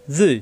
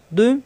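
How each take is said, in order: First: "জুই" with a heavy buzz at the teeth; emphatic fricative in "জুই"; thick za. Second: "দুই" thick, tongue edge on molars; emphatic d in "দুই"; heavy Arabic dad. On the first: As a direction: darken the onset of "জুই". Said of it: "মোটা হবে". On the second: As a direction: stop a dark d to open "দুই". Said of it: "দুটোটাই মোটা হরফ". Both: Shown as a demonstration.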